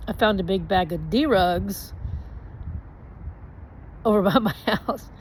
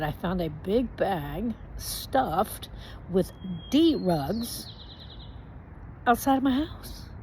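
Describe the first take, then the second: First: Said in the usual way. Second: Very slow, spelled-out repeat; each word dragged out to be understood; slow, deliberate repeat. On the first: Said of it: "and I say". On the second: Retold or imitated. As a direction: say it again slowly for the cop. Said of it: "And I said".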